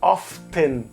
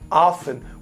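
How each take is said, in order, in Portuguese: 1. O som do t é claramente pronunciado. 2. O som do t é omitido. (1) "você não pronuncia often" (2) "como se o T não existisse ali"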